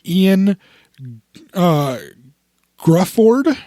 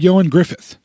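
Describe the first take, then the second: First: The name is said as "Ian Grufford." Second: The name is said as "Yo-an Griffith." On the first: This is how the spelling suggests it is said. The speaker calls it wrong. "His name looks like it should be" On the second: This is how the name is really said. The speaker calls it right. "but his name is actually"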